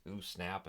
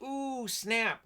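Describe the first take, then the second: First: Low, much softer ooh snap; quiet low aside; muttered ooh snap. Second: High, sassy ooh snap; high playful taunt; mock sassy ooh snap. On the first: Pretend. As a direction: mutter it under your breath. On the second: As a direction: squeal it like a gossiping teen. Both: Mock crowd reacting to insult.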